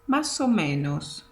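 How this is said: The words are blended into one flowing unit.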